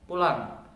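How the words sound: It is said in an annoyed, unfriendly tone.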